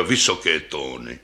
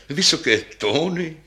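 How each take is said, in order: First: Put-on deep old bass voice. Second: Higher, brighter lady bass, eager. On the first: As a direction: sigh it out deep like an aged instrument. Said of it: "pravila hlubokým hlasem basa". (hluboký hlas staré basy) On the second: Acted. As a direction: answer lightly, proud of the high notes. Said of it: "řekla basa s vyšším hlasem". (vyšší hlas mladší basy)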